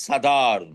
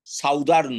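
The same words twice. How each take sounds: First: সাদার্ন with a short "sa", no diphthong, the right way; correct pronunciation. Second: সাউদার্ন with a clear "sau" diphthong, shown as the wrong way; wrong pronunciation. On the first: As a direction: say সাদার্ন as "sa-dharn", vowel changed from south. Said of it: "উচ্চারণটা change হচ্ছে". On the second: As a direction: say সাউদার্ন as "sau-dharn", like south plus ern. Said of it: "সাউদার্ন নয়". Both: Shown as a demonstration.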